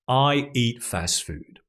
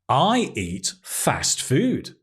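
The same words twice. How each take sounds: First: It is said in a flat, bored tone. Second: It is said in a proud tone. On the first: The speaker calls it wrong. "And it's so boring" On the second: The speaker calls it right. "Very proud"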